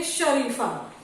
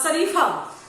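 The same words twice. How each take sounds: First: शरीफा with a clear 'sh' at the start; correct sh sound. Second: शरीफा said with a plain 's', as sareefa; mispronounced s for sh. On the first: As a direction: say शरीफा properly as sha-REE-faa. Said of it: "हमको क्या बोलना चाहिए?". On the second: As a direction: slowly say शरीफा wrongly as sa-REE-faa. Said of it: "मतलब ये गलत word है". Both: Shown as a demonstration.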